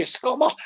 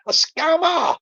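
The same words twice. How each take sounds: First: Questioning "scammer" with a broad AH vowel; mispronounced word. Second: "scammer" with a short A as in cat, called out higher; corrected pronunciation. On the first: Catching own slip, "scammer" said as questioning "scahmer". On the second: Fixing own slip, "scammer" exclaimed with short A. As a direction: punch "scammer" with a short flat A, falling. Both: Shown as a demonstration. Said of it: "What did I say?".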